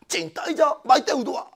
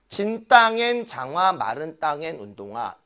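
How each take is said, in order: First: It is said with playful, varied intonation. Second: It is said with plain, flat intonation. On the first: "재밌게 … 억양, 어조의 변화를 줬지" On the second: "그냥"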